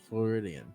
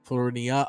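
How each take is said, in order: First: The name ends with an added n sound. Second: The name ends on a vowel, without n. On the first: The speaker calls it wrong. "I've just mentally always heard a mispronunciation" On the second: The speaker calls it right. "Oh, my bad"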